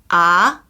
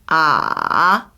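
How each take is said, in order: First: The syllable carries the second tone. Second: The syllable carries the third tone. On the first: "2성" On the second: "3성"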